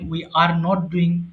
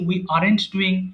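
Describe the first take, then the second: First: The words 'are not' are said in full. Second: The words 'are not' are contracted together. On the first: "আপনি বড় ফর্মটা ব্যবহার করতে পারেন" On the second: "আমরা একটু সংক্ষেপে লিখেছি"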